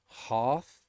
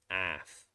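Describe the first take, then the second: First: The vowel is a long, broad 'ah' sound. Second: The vowel is a short, flat 'a' sound. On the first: "So for British English" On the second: "and Americans"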